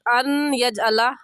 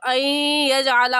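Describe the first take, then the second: First: The n is pronounced separately before the y. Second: The n merges nasally into the following y. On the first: The speaker calls it wrong. "गलत अन यजअला इस तरह से पढ़ना गलत है" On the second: The speaker calls it right. "मिलाकर पढ़ेंगे तो ऐ यजअला हो जाएगा, ये दुरुस्त है"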